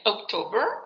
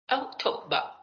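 First: The ending is said with an audible r sound. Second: The ending sounds like a vowel, with no r. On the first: "hacen R" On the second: "Si es británico acaba como una A"

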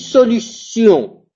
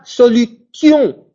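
First: The middle consonant is an s sound. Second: The middle consonant is a hard t sound. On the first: The speaker calls it right. "On dit solution" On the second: The speaker calls it wrong. "Je dis pas solution, parce que le T se prononce tch"

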